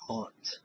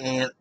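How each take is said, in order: First: The vowel is broader, like 'ahnt'. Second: The vowel sounds like the insect 'ant'. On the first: The speaker calls it right. "we say aunt" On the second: The speaker calls it wrong. "I don't say ant because it's an insect"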